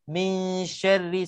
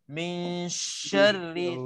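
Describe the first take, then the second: First: The sh sound is given only a slight hiss. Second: The sh sound is given a long, heavy hiss. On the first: The speaker calls it right. "sikit je" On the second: The speaker calls it wrong. "jangan jangan lebih sangat"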